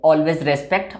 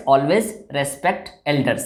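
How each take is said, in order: First: Said in the usual way. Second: Always respect elders spoken very slowly and softly; unhurried, deliberate advice. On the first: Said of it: "always, यानी हम किसी को". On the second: Shown as a demonstration. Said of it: "advice दे रहे हैं तो always obey".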